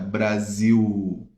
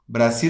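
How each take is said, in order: First: It is said with a Portuguese pronunciation. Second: It is said with a Spanish pronunciation. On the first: "em português é diferente" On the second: "en español sería Brasil"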